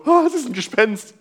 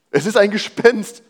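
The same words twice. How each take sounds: First: High, hammed-up "Ah" of fright; exaggerated mock terror; mock ghost panic. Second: A startled, higher cry of fear; mild fearful exclamation; frightened cry. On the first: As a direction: play the scared disciples for laughs. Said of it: "und alle so". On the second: Acted. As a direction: read it as terrified disciples. Frightened disciples quoted in reading.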